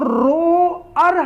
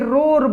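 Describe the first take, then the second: First: The word is split into two syllables. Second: The word is said as one syllable. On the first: The speaker calls it wrong. "हम इसको नहीं बोलेंगे" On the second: The speaker calls it right. "रोर बोलेंगे"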